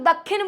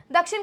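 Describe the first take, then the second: First: दक्षिण said with a doubled kh, as dakkhin; दक्षिण pronounced dak-khin, the spoken tadbhav way; teacher models दक्षिण as dakkhin; everyday pronunciation. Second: दक्षिण said with a clear क्ष, as dakshin; दक्षिण pronounced dak-shin, the formal tatsam way; teacher models दक्षिण as dakshin; Sanskrit pronunciation. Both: Shown as a demonstration. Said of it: "दक्षिण को हम लोग दक्षिण बोलते हैं".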